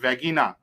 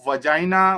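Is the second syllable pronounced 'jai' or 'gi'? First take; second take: gi; jai. First: The second syllable sounds like 'gi'. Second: The second syllable sounds like 'jai'. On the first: The speaker calls it wrong. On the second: The speaker calls it right.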